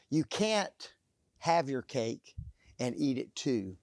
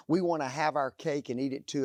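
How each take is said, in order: First: "You can't" punched, the rest dropping; stress on CAN'T. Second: Said in the usual way. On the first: Shown as a demonstration. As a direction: hit "can't" hard, then let the rest fall. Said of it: "The statement really goes like this". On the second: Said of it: "it says this".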